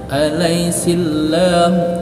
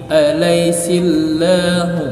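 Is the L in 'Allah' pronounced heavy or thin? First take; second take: thin; thin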